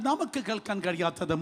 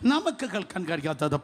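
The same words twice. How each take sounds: The two takes are said the same way.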